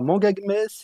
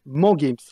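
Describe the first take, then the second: First: The name is said as three syllables. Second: The name is said as two syllables. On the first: The speaker calls it wrong. "pas manga games" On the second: The speaker calls it right. "c'est man games"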